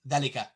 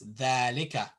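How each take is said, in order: First: The marked vowel is clipped short and fast. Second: The marked vowel is held long. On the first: The speaker calls it wrong. "You don't say dhalika really fast like that" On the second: The speaker calls it right. "it's dhalika"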